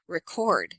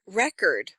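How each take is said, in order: First: "record" stressed on the second syllable, re-CORD; verb stress. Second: "record" stressed on the first syllable, REC-ord; noun stress. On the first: Coach contrasting verb and noun, "record" stressed on CORD. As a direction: hit the end of "record" as the verb. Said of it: "one's a verb". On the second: Coach contrasting noun and verb, "record" stressed on REC. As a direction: hit the start of "record" as the noun. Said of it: "One's a noun". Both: Shown as a demonstration.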